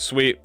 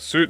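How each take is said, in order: First: The word rhymes with feet. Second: The word rhymes with boot. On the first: The speaker calls it wrong. "I always called it sweet" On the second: The speaker calls it right. "It's supposed to be like suit"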